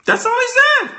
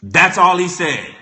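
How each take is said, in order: First: Squeaky high voice; comic falsetto; high-pitched mock. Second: Said in the usual way. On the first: Shown as a demonstration. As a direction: jump way up into falsetto on That's all he said.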